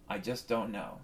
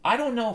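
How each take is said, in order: First: A resigned, quiet I just don't know; deflated mumble. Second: Big frustrated I DON'T know; exasperated outburst. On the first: Comic to the crowd, a defeated low mumble. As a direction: drop it low and soft, giving up. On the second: Comic to the crowd, a loud exasperated I don't know. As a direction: blurt it high and loud, throwing up your hands. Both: Acted.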